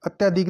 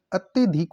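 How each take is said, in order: First: अत्यधिक with a long yaa; mispronounced अत्यधिक. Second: Said in the usual way. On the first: Shown as a demonstration. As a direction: say अत्यधिक as "atyaa-dhik". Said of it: "अत्यधिक अशुद्ध है". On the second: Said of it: "होता है शुद्ध शब्द".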